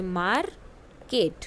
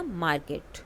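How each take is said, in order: First: Drawn out, every syllable clear; slow model word. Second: Said in the usual way. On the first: Shown as a demonstration. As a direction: model it slowly for the class. (धीरे-धीरे, हर अक्षर साफ़ "market") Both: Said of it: "listen to your teacher and say the following word".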